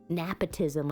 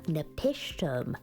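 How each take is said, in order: First: The name is said as 'nepotism'. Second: The name is said as 'nepishtim'. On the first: The speaker calls it wrong. "nepotism I was saying last time" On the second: The speaker calls it right. "The better pronunciation compared to last time"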